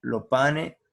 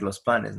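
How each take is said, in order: First: "lo pane" with both final s sounds left off; dropped final s. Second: Said in the usual way. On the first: Shown as a demonstration. Teacher showing the class how locals say "lo pane". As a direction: say "lo pane" with no s on either word. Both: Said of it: "en vez de decir los panes".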